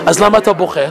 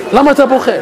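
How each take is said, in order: First: Said in the usual way. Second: Preacher repeats the question, now pressing למה harder; stress on למה. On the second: Shown as a demonstration. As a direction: press the word למה as a challenge.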